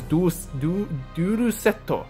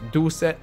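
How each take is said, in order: First: The last word ends with an added 'o' vowel. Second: The last word ends on a plain 't' sound. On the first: "which is how you pronounce it in Japanese" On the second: "basically it transfers to Duel Set"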